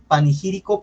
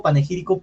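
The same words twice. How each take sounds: First: Panegírico said as "panigírico"; mispronounced word. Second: Panegírico with a clear "ne"; corrected panegírico, e in the second syllable; self-corrected pronunciation. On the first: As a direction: say panegírico with an i in the second syllable, "pa-ni-". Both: Real, not acted. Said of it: "aquí no tengo la dicción bien de la palabra".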